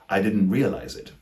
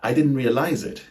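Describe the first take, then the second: First: The stress falls on the first syllable of realize. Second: The stress falls on the last syllable of realize. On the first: The speaker calls it right. "more accurately, it should be pronounced as" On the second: The speaker calls it wrong. "they might say something like"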